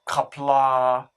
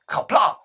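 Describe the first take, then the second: First: The word ends softly without a sudden stop. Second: The word ends with a sudden, abrupt stop. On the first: The speaker calls it wrong. "and not kapla" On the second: The speaker calls it right. "the last letter is a very abrupt stop. You have to say kapla"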